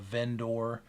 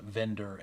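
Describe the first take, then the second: First: The last syllable is a clear, full 'or'. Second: The last syllable is a weak, reduced 'er'. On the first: "I just say the O R very intentionally" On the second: "You'd probably actually pronounce it vendor"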